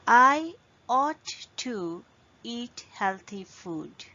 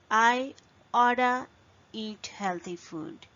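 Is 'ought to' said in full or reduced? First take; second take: full; reduced. First: Ought to is said fully as two words. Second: Ought to is reduced to oughta.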